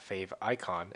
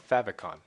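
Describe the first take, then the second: First: It is said as two words, fave and icon. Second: It is said as one word, fav-icon. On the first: The speaker calls it wrong. "not fave icon" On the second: The speaker calls it right. "That's how you say it"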